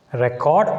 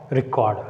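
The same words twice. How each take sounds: First: RECord, open "rek", rising at the end; strong REC in Record, left rising; noun stress on first syllable. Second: ReCORD, weak "ri", falling at the end; verb stress on second syllable. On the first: Teacher contrasting noun with verb, stress on first syllable. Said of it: "a noun takes the stress on the first syllable". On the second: Teacher contrasting verb with noun, stress on second syllable. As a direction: lean on CORD in Record, falling. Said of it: "a verb takes on the second syllable". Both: Shown as a demonstration.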